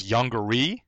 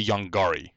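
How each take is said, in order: First: Yongari with an unstressed, reduced middle, ending on a rising "ee"; public domain pronunciation. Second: Yongari with a full open "gar" in the middle; Korean speakers' pronunciation. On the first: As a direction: say Yongari lightly, like "YONG-guh-ree". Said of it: "there's one pronunciation that's on the public domain copy". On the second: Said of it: "I've also heard Korean speakers say". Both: Shown as a demonstration.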